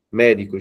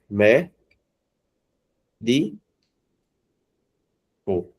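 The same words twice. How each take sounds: First: Said in the usual way. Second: "mé, di, co" with long pauses between syllables. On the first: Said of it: "Vamos pegar aqui a palavra". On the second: Shown as a demonstration. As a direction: split it slowly into "mé, di, co". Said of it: "veja que não é a sílaba". ("mé, di, co" separado sílaba por sílaba)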